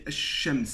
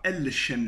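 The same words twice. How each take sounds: First: Ash-shams with the l merged into a doubled sh; ash-shams pronounced smoothly with no l; correct assimilated form. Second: Al-shams with a clear l before the sh; al-shams said clumsily with the lam kept; wrong unassimilated form. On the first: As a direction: say ash-shams, the sun letter swallowing the lam. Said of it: "je ne dis pas al-shams". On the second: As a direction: sound the l in al-shams as a heavy mistake. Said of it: "c'est un peu trop lourd". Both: Shown as a demonstration.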